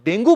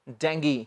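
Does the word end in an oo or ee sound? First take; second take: oo; ee. First: The word ends with an oo vowel. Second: The word ends with an ee vowel. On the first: The speaker calls it wrong. "जिसे हम डेंगू बोल देते हैं" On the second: The speaker calls it right. "आज के बाद क्या कहना है"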